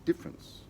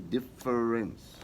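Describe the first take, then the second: First: The middle syllable is dropped, giving two syllables. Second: The middle syllable is pronounced, giving three syllables. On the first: The speaker calls it right. "it's silent. We say difference" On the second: The speaker calls it wrong. "We don't say difference"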